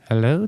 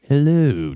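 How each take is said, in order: First: The greeting sounds friendly and pleasant. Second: The greeting sounds sinister and menacing. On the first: The character seems like a nice, harmless guy. The speaker calls it wrong. "that sounds very pleasant" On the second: The character is an evil, menacing villain. The speaker calls it right. "if actual Jafar comes and talks to you"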